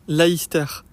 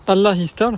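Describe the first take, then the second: First: The phrase is shortened into one run-together word. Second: The phrase is said in full as two words. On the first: The speaker calls it wrong. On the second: The speaker calls it right.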